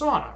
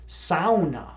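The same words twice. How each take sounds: First: Sauna is said the usual English way. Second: Sauna is said the Finnish way. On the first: The speaker calls it wrong. "That's how people say it" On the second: The speaker calls it right. "it's actually pronounced sauna"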